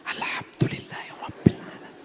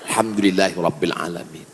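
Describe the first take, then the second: First: It is recited slowly and carefully. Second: It is rushed and garbled in one breath. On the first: The speaker calls it right. "Fatihah benar-benar" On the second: The speaker calls it wrong. "baca Fatihah satu nafas putus. Macam bakwan panas"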